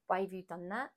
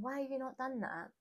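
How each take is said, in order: First: Said in the usual way. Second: Higher-pitched scolding, not actually shouted; mild mock rant; mock exasperated nagging. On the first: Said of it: "Rather than ranting and raving". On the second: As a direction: imitate nagging a partner without raising the volume. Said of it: "or shouting at him across the room".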